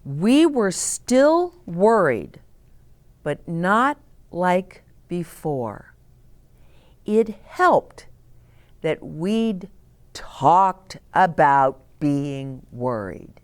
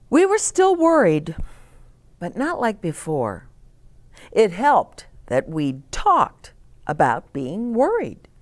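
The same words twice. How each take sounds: First: Slow, savoured reread. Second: Said in the usual way. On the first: A narrator's reading. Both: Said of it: "where's that line that I liked?".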